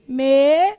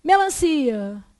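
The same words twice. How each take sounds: First: Melancia as loud, separate me, lan, ci, a; syllable by syllable. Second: Said in the usual way. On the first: Shown as a demonstration. Teacher dividing Melancia for the class, syllable by syllable. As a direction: break Melancia into held syllables.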